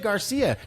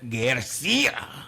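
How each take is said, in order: First: The name is said with a plain English accent. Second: The name is said with an exaggerated Spanish accent. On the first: The name is said simply, without affectation. The speaker calls it right. "Just say" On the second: The speaker is putting on a Spanish pronunciation. The speaker calls it wrong.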